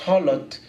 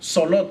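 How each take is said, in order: First: The word begins with an h sound. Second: The word begins with an s sound. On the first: "suena como con J" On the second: "no suena como Solot"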